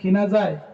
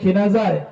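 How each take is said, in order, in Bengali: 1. প্রশ্নটি স্বাভাবিক স্বরে বলা হয়েছে। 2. প্রশ্নটি আরও জোরে বলা হয়েছে।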